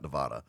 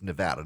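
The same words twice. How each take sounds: First: It is said with an outsider's pronunciation. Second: It is said with the locals' pronunciation. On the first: The speaker calls it wrong. "not Nevada" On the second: The speaker calls it right. "That's what the Nevadans call it"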